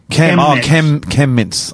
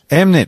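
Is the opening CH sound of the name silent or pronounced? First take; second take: pronounced; silent. First: The name begins with the CH sound. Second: The name begins without the CH sound. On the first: The speaker calls it right. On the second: The speaker calls it wrong.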